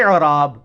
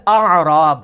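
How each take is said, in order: First: "اعراب" slow, starting with i and a throaty ain, "i'-raab"; i'raab, the grammar term. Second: "اعراب" starting with a and a throaty ain, "a'-raab"; a'raab, the villagers. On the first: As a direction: open "اعراب" with i, then ain. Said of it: "اور وہ ہے کہ مختلف". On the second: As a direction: open "اعراب" with a, then ain. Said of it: "وہ ہے پینڈو". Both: Shown as a demonstration.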